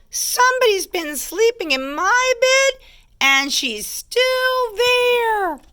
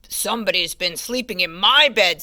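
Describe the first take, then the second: First: Very high cub squeal, drawn out at the end; astonished baby bear squeak; high squeaky baby bear. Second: Lightly voiced big bear; understated storybook bellow; a hint of papa bear. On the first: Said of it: "squeaky little voice". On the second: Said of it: "Papa Bear bellowed". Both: A narrator's reading.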